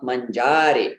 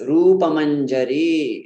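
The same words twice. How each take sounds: First: Manjari as man-JAA-ri; long JAA, short last vowel on manjari; mispronounced manjari. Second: Slow rupa manjari, ending man-ja-REEE; short JA, long RI in manjari; correct long final vowel. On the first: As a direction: stress and prolong the middle syllable of manjari. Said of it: "wrong stress". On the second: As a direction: stretch the last ee of manjari. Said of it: "it's not manjari". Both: Shown as a demonstration.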